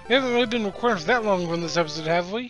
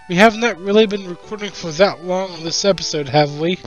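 First: It is said at normal speed. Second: It is said slowly and deliberately.

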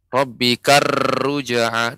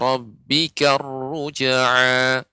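First: The r is trilled with many vibrations. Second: The r is trilled with few vibrations. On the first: The speaker calls it wrong. "Roknya tidak boleh banyak getaran. ... ini juga kurang tepat" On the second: The speaker calls it right. "getarannya sedikit"

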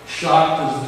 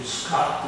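First: The name begins with an sh sound. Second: The name begins with s plus throaty sound. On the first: "the German pronunciation" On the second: "the Dutch pronunciation"

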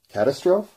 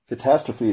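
First: The word is said just as it is spelled. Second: The word is said in its standard form. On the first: The speaker calls it wrong. "Sure, it does look like that" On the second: The speaker calls it right. "that does not look like"

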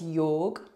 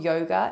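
First: The word ends on the g with no vowel after it. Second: The word ends with a vowel sound after the g. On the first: The speaker calls it right. "drop the last A" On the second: The speaker calls it wrong. "it's not yoga"

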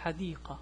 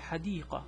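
First: The word ends in a soft h sound. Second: The word ends in a soft h sound.

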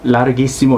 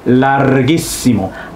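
First: The R is only lightly rolled. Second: The R is strongly and longly rolled. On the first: "Larghissimo 이 정도 해주셔도 되고" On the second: "조금 더 강조하는 의미에서"

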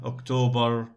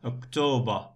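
First: The word ends with a clear 'r' sound. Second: The word ends with a weak vowel and no 'r' sound. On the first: The speaker calls it wrong. "We don't say ER, October, no" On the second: The speaker calls it right. "in British accent, ER is schwa"

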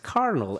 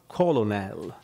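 First: It sounds like 'kernel', ignoring the spelling. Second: It is sounded out letter by letter, col-o-nel. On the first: The speaker calls it right. "you really have to learn that this is carnal" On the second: The speaker calls it wrong. "and not colonel"

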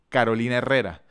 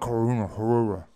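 First: The name is said with Spanish pronunciation. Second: The name is said with a slurred English pronunciation. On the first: The speaker calls it right. "Ellos pudieran decir fácilmente" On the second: The speaker calls it wrong.

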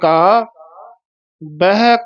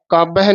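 First: A pause separates the two words. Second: The two words run together without a pause. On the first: The speaker calls it right. "ਇਹ ਵਿਸਰਾਮ ਮਹਿੰਗਾ ਹੈ" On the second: The speaker calls it wrong. "ਕਾਬਹਿ ਨਹੀਂ ਬੋਲ ਜਾਣਾ"

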